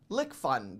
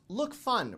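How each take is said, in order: First: The first part sounds like the word lick. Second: The first part sounds like the word look. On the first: The speaker calls it wrong. "rather than Lick Fun" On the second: The speaker calls it right. "I've decided to pronounce it as Look Fun"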